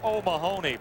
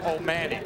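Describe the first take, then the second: First: The name is said the way it is spelled. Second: The name is said shortened, as O'Manny. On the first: This is how the name reads on the sweater. "It says O'Mahony" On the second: This is how the player himself says it. "but he pronounces it O'Manny"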